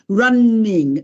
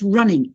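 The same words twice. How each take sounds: First: The n is held long, like a double consonant. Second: The n is short, like a single consonant. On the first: The speaker calls it wrong. "You cannot say run, running. No" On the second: The speaker calls it right. "It's run, it's running"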